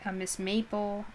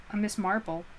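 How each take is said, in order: First: "Maple" said without the r, as in maple syrup; misread name. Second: "Marple" with a long "ar" and a touch more weight; corrected name. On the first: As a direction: read "a Miss Maple" with a plain vowel. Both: Shown as a demonstration.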